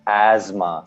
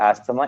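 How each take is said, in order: First: It is said with a z sound inside. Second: It is said without a z sound inside. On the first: The speaker calls it right. "So there's a z sound in between" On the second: The speaker calls it wrong. "we don't say asthma"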